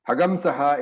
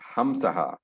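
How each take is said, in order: First: A 'g' sound comes before the nasal. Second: A plain nasal with no 'g' sound. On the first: This is the form used when chanting. "is the Vedic pronunciation" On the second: This is the form used when not chanting. "then the special character becomes a normal Anuswara"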